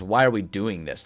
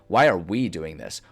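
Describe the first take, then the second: First: The stress is on the word this. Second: The stress is on the word we.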